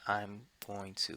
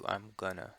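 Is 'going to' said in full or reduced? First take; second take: full; reduced. First: The two words are said fully and separately. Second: The two words are joined and reduced together. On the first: It is the more formal form. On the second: It is the more casual form. "these two words are joined together and it's easier to just say gonna"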